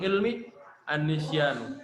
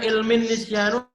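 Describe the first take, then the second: First: The two words are said separately. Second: The two words run together into one. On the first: "kita pisah aja, kita pisah" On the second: "kita baca ilmin nisyanu apa an-nisyanu"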